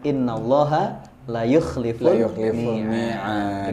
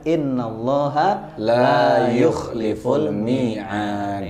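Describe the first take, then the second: First: The vowel in 'la' is short. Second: The vowel in 'la' is long. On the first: The speaker calls it wrong. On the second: The speaker calls it right.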